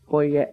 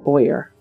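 First: The name is pronounced in a French way. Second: The name is pronounced in an English way. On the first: The speaker calls it right. "He's French" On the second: The speaker calls it wrong. "Not Boyer"

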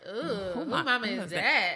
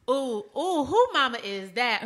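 First: The question sounds scornful and judging. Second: The question sounds impressed and admiring. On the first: The mother is looked down on. The speaker calls it wrong. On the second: The mother is admired for how she looks. The speaker calls it right. "there's two ways to say it"

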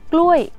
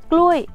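Both takes have the same delivery.

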